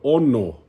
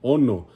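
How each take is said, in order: Both takes have the same delivery.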